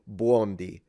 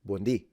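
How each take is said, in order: First: The stress is on the first syllable. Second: The stress is on the last syllable. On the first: The speaker calls it wrong. "she's stressing the beginning" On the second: The speaker calls it right. "we stress the end because there is an accent"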